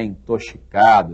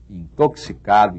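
First: The x is not sounded as ks. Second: The x is sounded as ks. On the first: The speaker calls it wrong. "não é intoxicado" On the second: The speaker calls it right. "Da palavra tóxico vem todas essas aí"

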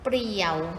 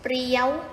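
First: The syllable is said on a low tone. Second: The syllable is said on a high tone.

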